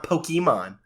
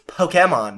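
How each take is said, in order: First: "Pokemon" with an ee middle, po-kee-mon; rejected pronunciation. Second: "Pokemon" with an open middle, po-keh-mon; anime pronunciation. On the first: Host showing co-host the version to avoid, "Pokemon" as po-kee-mon. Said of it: "not Pokemon". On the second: Host correcting co-host with the anime's way, "Pokemon" as po-keh-mon. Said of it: "In the anime, they say it's". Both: Shown as a demonstration.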